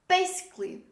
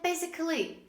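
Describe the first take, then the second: First: The 'al' is silent before 'ly'. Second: An extra 'al' syllable is pronounced before 'ly'. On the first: The speaker calls it right. "We don't pronounce the letter A" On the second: The speaker calls it wrong. "don't say basically"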